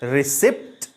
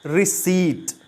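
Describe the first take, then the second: First: The p sound is clearly pronounced. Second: The p sound is left silent. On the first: The speaker calls it wrong. "It is the wrong pronunciation" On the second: The speaker calls it right. "पी silent होता है"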